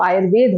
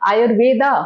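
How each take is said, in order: First: The word ends on a consonant, no final vowel. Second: The word ends with a final 'a' vowel. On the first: The speaker calls it right. "वो आयुर्वेद होता है" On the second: The speaker calls it wrong. "वो आ नहीं पढ़ा जाएगा"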